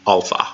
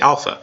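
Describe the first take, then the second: First: The first vowel sounds like in 'father'. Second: The first vowel is not like 'father'. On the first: This is the different pronunciation system used for the language. "It's because it's an entirely different pronunciation system, especially when it comes to the vowels" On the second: This is the modern pronunciation used in math class. "the modern pronunciation system that is usually used in math class"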